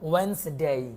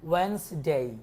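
The two takes are said the same way.

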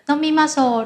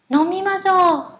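First: The voice is low, flat and unenthusiastic. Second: The voice is raised, high and lively. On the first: The speaker calls it wrong. "Chúng ta không thể là nói là nomimasho" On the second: The speaker calls it right. "Vậy các bạn lưu ý giúp mình nhé"

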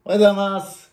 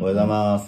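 First: The greeting is said in a high pitch. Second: The greeting is said in a low pitch.

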